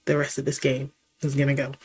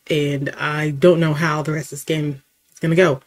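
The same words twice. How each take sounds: First: Fast and softer, under his breath; quick mutter. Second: Said in the usual way. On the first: Real, not acted. Repeats his own line.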